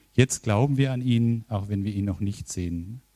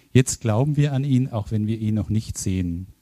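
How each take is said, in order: No difference in how they are said.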